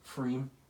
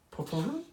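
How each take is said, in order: First: It is said with one syllable, like freem. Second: It is said with two syllables, like perfume. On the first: The speaker calls it right. "Apparently it's just Freem" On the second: The speaker calls it wrong. "Sounds like perfume?"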